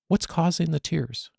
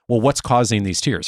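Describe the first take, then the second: First: It sounds light, warm and curious. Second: It sounds accusatory and puts the listener on the defensive.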